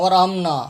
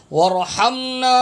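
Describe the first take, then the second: First: ورحمنا said quickly with a weak h; wrong reading. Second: ورحمنا chanted slowly and higher with strong throat h; correct recitation. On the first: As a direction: mimic the mistake, ورحمنا with a light alif-like h. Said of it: "لوگ تلفظ غلط پڑھتے ہیں". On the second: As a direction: draw out ورحمنا on a firm haa. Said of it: "یہ ہا ہے". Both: Shown as a demonstration.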